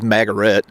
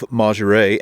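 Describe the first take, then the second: First: The name is said in a broad American way. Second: The name is said in a local, French-like way. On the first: "the American Midwestern redneck version" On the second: "I think that I'm pronouncing that correctly"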